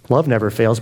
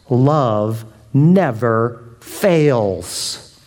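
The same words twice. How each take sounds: First: Said in the usual way. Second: Drawn out very slowly, each word weighed; slow solemn reading. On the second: Acted. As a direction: let love never fails hang in the air. Slow reading of scripture line.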